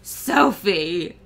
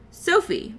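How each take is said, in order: First: The name is said in a gloomy, doom-laden voice. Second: The name is said in a plain voice. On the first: The speaker calls it right. "in a voice of doom" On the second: The speaker calls it wrong. "I should have said that differently"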